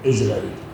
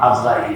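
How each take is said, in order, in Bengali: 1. নামটি 'is' ধ্বনি দিয়ে শুরু। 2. নামটি 'az' ধ্বনি দিয়ে শুরু। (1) "আসলে সহি হলো ইসরাঈল" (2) "আমরা আজরাইল বলি, বলতে সহজ"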